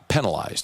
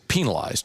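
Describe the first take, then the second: First: The first vowel sounds like 'peh'. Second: The first vowel sounds like 'pee'. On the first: The speaker calls it wrong. "not penalized" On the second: The speaker calls it right. "the preferred pronunciation of the word is penalized ... It's like the penal system"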